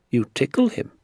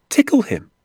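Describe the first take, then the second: First: Said in the usual way. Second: High, loud, incredulous repeat; astonished echo. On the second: Acted. Boy astounded by the doctor's trout trick, incredulous echo. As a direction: throw it back in amazed disbelief.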